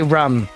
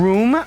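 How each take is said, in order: First: The vowel is short, like in rum. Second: The vowel is a long oo sound. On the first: This is the speaker's regional pronunciation. "I say rum" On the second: This is the standard pronunciation. "Instead of saying room"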